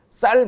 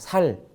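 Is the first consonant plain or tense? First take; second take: tense; plain. First: The word begins with a tense 'ss' sound. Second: The word begins with a plain 's' sound. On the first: The speaker calls it right. "쌀 해봐" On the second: The speaker calls it wrong. "경상도 사람들이 ... 쌀 못하고 살, 살 이렇게 하는"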